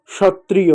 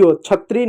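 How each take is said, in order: First: क्षत्रिय said "shatriy"; sh at the start of क्षत्रिय, not chh; correct sh sound. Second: क्षत्रिय mispronounced "chhatriy"; wrong chh sound. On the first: Teacher correcting for children, क्षत्रिय as "shatriy". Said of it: "श जैसा उच्चारण होता है". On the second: Teacher showing children the mistake, क्षत्रिय as "chhatriy". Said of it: "क्षत्रिय नहीं होता है". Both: Shown as a demonstration.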